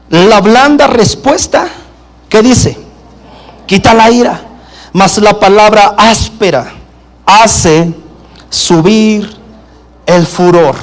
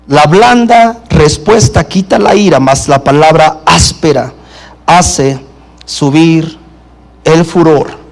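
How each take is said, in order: First: Slow, spaced reading with a pause after "La blanda respuesta", "hace" and "subir"; emphatic scripture reading. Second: Low repeated reading. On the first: Preacher reading the proverb aloud to the congregation, slow and spaced. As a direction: lean on "blanda" and "palabra", let each phrase hang. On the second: Preacher restating the proverb for the congregation, lower and calmer. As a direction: repeat "La blanda respuesta quita la ira" lower, with "mas la palabra áspera hace subir el furor" dropping low. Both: Shown as a demonstration. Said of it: "Dice la Escritura".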